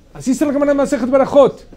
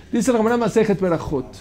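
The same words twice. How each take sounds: First: Whole phrase much higher and louder, "Berajot" driven home; emphatic restatement. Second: Said in the usual way. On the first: Shown as a demonstration. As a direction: hammer the source home to the class.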